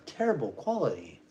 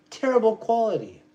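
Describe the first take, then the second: First: Said in the usual way. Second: Terrible said higher and louder, hammered; emphatic repeat. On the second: Real, not acted. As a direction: hit Terrible hard on the repeat.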